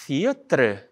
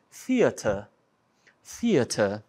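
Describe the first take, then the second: First: "theatre" com o R antes da vogal final, "fítre"; pronúncia errada. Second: "theatre" como "fíata", sem R no fim; pronúncia britânica. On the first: Retold or imitated. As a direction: leia "theatre" invertido, terminando em "tre". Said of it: "eles não falam theatre". ("theatre" dito "fítre") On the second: Shown as a demonstration. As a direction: diga "theatre" com final aberto, sem R. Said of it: "a pronúncia é até diferente". ("theatre" britânico, R mudo)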